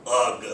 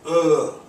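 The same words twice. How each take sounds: First: "ugh" read as a written word; loud, deliberate word "ugh", not a natural groan; spelled-out reading. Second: Loud, high groan of disgust; demonstrated disgusted "ugh", voice pushed up; natural interjection. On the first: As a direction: pronounce "ugh" literally, with a hard g at the end. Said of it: "people don't usually say". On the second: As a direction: groan the sound "ugh" with no hard g. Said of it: "that's just what that's supposed to say". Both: Shown as a demonstration.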